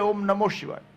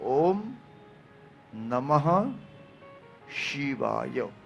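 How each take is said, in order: First: The middle word ends with an 'o' sound. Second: The middle word ends with an 'ah' sound. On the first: The speaker calls it wrong. "ઘણા આમ બોલે ઓમ નમો શિવાય, નમો પણ નહીં" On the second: The speaker calls it right. "મૂળ ઉચ્ચાર છે"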